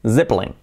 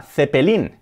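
First: "Zeppelin" as ZEP-lin; buzzing Z, two syllables in "Zeppelin"; English pronunciation. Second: "Zeppelin" as the-pe-LIN; Spanish th, all vowels sounded in "Zeppelin"; Spanish-style pronunciation. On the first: Teacher giving the correct word, English pronunciation. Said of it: "que es Zeppelin". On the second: Teacher introducing the word as Spaniards say it, hispanicized. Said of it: "luego viene la palabra Zeppelin". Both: Shown as a demonstration.

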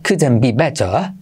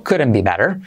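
First: England-style, dropped r on better; British accent. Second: American couldn't be better, tapped t, strong r; American r-coloured ending; American accent. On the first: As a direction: say it the British way, slowly. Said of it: "creo que lo dicen así en Inglaterra". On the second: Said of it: "Y la vocal se la come". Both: Shown as a demonstration.

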